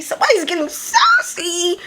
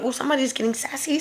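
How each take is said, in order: First: Hammed-up sassy singsong; exaggerated sass. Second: Quick, quiet sassy aside; understated sassy quip; sassy remark. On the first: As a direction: stretch out SASSY, pitched way up. Repeats her sassy reaction, exaggerated. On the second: Retold or imitated. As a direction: toss it off quickly and softly. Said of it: "I was like".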